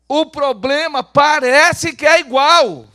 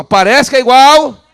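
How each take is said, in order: First: Slow, high, very loud declaration; loud proclamation. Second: Slow, high, full-volume shout. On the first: Preacher gives the congregation its line, loud proclamation. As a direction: proclaim it slowly to the whole church. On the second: Preacher demands a louder repeat from the congregation, shouting it out. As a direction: shout it for the crowd to echo. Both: Shown as a demonstration. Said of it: "Vamos falar bem alto?".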